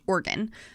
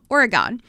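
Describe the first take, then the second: First: The word sounds like 'organ'. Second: The word does not sound like 'organ'. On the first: The speaker calls it right. "like organs in your body" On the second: The speaker calls it wrong. "growing up, I always pronounced the state's name"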